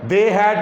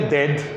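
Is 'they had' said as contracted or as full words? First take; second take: full; contracted. First: Both words are said separately and fully. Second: The words merge into one short syllable. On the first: "दे हैड को" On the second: "बोलेंगे डेड"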